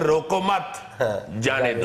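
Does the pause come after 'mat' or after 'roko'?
after mat. There is a pause right after 'mat'. Let them go. "लफ्ज वही है, meaning जो पुठे सीधे हैं"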